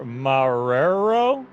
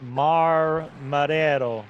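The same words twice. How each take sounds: First: "Marrero" stretched out slowly into a rising question; unsure pronunciation. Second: "Marrero" said carefully, first syllable set apart, falling end; careful pronunciation. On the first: Real, not acted. Co-host attempts a driver's name, "Marrero" drawn out questioningly. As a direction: draw out "Marrero", unsure, lifting at the end. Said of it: "Say it right". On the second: Shown as a demonstration. Co-host told to say it right, "Marrero" pronounced carefully. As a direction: try "Marrero" deliberately, as a settled statement. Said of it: "say it right".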